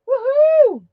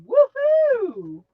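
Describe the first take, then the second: First: Quick high whoop in her own voice; own cheer. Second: Slow, drawn-out woohoo, lightly imitating a friend; Blossom's woohoo. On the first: Real, not acted. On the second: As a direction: stretch it out like Blossom does. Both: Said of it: "as Blossom says".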